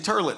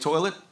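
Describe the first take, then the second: First: The first vowel sounds like 'ur'. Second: The first vowel sounds like 'oy'. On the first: The speaker calls it wrong. "turlet's not a word. You can't say turlet" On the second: The speaker calls it right. "you say toilet"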